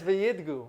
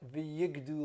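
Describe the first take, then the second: First: The d sound comes before the g sound. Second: The g sound comes before the d sound. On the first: The speaker calls it right. "but it's v'yidgu" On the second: The speaker calls it wrong. "I pronounced the word wrong"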